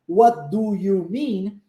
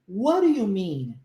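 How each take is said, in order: First: Each word is said fully and separately. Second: The words are reduced and run together. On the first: "a pronúncia dessa pergunta certinha, bonitinha" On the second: "Como é que a gente faz?"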